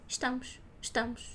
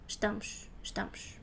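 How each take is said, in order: No difference in how they are said.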